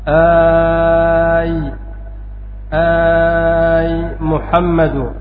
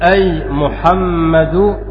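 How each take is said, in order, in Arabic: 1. الحركة الأولى طويلة. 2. الحركة الأولى قصيرة. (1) "وبالمد كيف نقول؟" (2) "هذا بالقصر"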